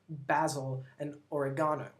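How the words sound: They are said in a British accent. "they pronounce it"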